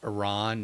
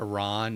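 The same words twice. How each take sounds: First: The second vowel is drawn out long. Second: The same.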